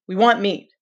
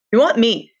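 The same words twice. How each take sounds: First: Said in the usual way. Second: Louder, resentful "We want meat"; antagonistic. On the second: Acted. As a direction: push back hard on "want". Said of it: "Now the antagonism was audible".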